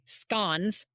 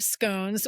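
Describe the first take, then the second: First: Scones is said the Australian way. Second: Scones is said in the speaker's usual way.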